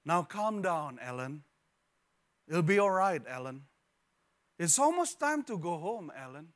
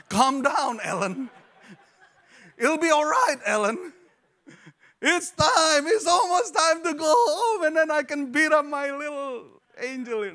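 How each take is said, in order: First: Measured, soothing mother voice; a tired mom staying calm in the store; calm patient mother. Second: High, loud, laughing frantic mother; hammed-up frazzled mom yelling through laughter; exasperated mock yell. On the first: Retold or imitated. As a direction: keep it gentle and patient through the chaos. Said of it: "the mother was heard saying out loud". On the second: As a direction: shriek it like a mom at her breaking point. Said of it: "No, just kidding".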